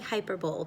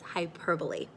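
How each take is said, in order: First: The word is pronounced the way it is spelled. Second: The word is pronounced differently from its spelling. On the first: The speaker calls it wrong. "It looks like hyperbole, but remember, it is not pronounced that way" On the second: The speaker calls it right. "It's hyperbole"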